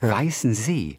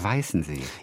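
First: The stress is on the last part. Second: The stress is on the first part. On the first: The speaker calls it right. "warum wird das wohl hinten betont?" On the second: The speaker calls it wrong. "ich sage immer Weißen See"

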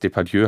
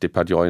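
First: The name is said with French pronunciation. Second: The name is said with German pronunciation. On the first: This is the name in its original language. The speaker calls it right. "wenn ich jetzt Depardieu heißen würde" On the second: This is the name adapted to German. The speaker calls it wrong. "würde ich mich ja auch nicht Depardieu nennen"

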